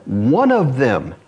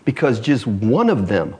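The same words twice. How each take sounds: First: "one of them" slowed, leaning on "one"; slow emphatic repeat. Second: Said in the usual way. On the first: Shown as a demonstration. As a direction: drag out "one of them" to drive it home.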